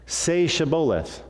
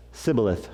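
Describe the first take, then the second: First: Slow, higher-pitched prompt with SH in Shibboleth; correct password pronunciation. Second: Sibboleth with S in place of SH; botched Shibboleth opening on a plain S; mispronounced password. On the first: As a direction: say Shibboleth slowly with a clear SH. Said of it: "saying the word Shibboleth". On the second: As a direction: say Sibboleth, missing the SH sound. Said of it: "That's wrong". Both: Acted.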